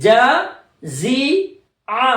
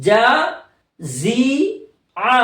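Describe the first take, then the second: No difference in how they are said.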